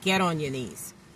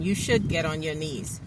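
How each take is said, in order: First: It is said firmly, as a command. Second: It is said gently, as a suggestion.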